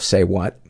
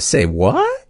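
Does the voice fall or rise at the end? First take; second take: falls; rises. First: The voice stays flat or falls at the end. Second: The voice rises at the end like a question. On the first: It is read as a plain name. The speaker calls it wrong. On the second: It is said as a question. The speaker calls it right.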